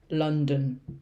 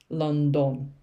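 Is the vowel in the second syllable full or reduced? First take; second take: reduced; full. First: The second syllable has a short schwa vowel. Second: The second syllable has a full, clear vowel. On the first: The speaker calls it right. "this part here is the schwa e sound" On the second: The speaker calls it wrong. "people always say London because of the spelling"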